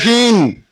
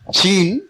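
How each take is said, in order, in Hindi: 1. यह शब्द f के करीब लगने वाली ध्वनि से शुरू होता है। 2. यह शब्द एक साफ़ sh ध्वनि से शुरू होता है। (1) "सा और फा के बीच में कोई ध्वनि, वो ऐसा बोलते थे" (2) "सुनना तो शीन चाहते थे"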